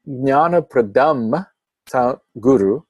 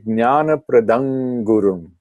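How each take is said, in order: First: The nasal before 'guru' is an m sound. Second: The nasal before 'guru' is an ng sound. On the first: "with a makara, with the M sound at the end" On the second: "you can change that legitimately, optionally"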